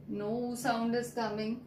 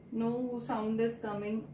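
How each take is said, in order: Both takes have the same delivery.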